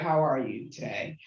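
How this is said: It sounds mocking and heavily sarcastic. The speaker does not really care and is mocking. "Very sarcastically"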